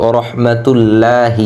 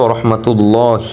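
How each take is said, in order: First: "ورحمة الله" with a light, thin "lla"; quick "ورحمة الله" with an unrounded laa; common mispronunciation. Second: "ورحمة الله" with a full, rounded "llaw"; "ورحمة الله" ending in heavy "llaw-hi"; correct heavy lam. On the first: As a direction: say "الله" with a front, clear aa, "laahi". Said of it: "আমরা অনেকেই বলি". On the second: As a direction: say "الله" with a dark l and back vowel. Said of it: "সঠিক উচ্চারণ হবে". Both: Shown as a demonstration.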